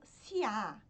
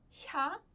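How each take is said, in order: First: A separate 'ee' sound comes before the vowel. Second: One blended 'sh'-like sound leads into the vowel. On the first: The speaker calls it wrong. "muitas pessoas pronunciam como siá... mas isso tá errado" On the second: The speaker calls it right. "É um som entre o S e o X"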